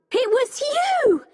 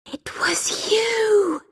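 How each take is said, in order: First: High-pitched accusing cry; shouted accusation. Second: Slow, high, airy whisper; breathed realisation. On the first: Becky to the old man, shouting an accusation. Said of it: "started shouting". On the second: Becky to the old man on recognising him, breathed. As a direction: breathe it out slowly in stunned accusation. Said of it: "she breathed". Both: A narrator's reading.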